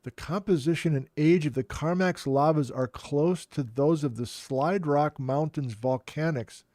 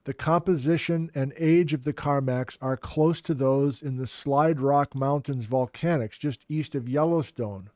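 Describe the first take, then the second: First: Incredulous. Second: Said in the usual way. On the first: Real, not acted.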